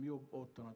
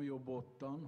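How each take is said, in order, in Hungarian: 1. A két szó világosan el van választva. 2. A két szó egybefolyik. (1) "hanem jobb ottan... jobban ki kéne külön kéne választani" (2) "Nem jobb ottan"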